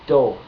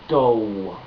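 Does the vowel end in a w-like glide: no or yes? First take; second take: no; yes. First: The o vowel is pure with no glide. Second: The o vowel ends in a w-like glide. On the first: The speaker calls it right. "Don't add W's to the end of your O's" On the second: The speaker calls it wrong. "Don't add W's to the end of your O's"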